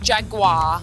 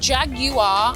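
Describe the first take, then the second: First: The g runs straight into 'war' without 'yoo'. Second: The g is followed by a clear 'yoo' sound. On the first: The speaker calls it wrong. "not Jaguar" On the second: The speaker calls it right. "because it's a U, Jaguar. I'm British"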